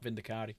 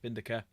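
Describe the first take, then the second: First: The name ends with an 'ee' sound. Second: The name ends with an 'air' sound. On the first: This is how the books say it. "that's what they say in the book" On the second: This is how the speaker personally says it. "Vindicare, that's what I say"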